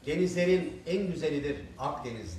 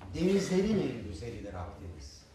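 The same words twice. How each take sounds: First: Each word is separated without linking into vowels. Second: Final consonants link smoothly into the following vowels. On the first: The speaker calls it wrong. "ulamaları yapmadığımız zaman nasıl yanlış geliyor" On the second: The speaker calls it right. "Ben okuyayım pekala"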